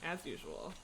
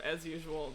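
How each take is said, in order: First: "as usual" trailed off softer and lower with a rising lilt; wry as usual. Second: Said in the usual way. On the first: Real, not acted. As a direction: toss off "as usual" with a dry, knowing rise. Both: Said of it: "as, as in, that is my hope".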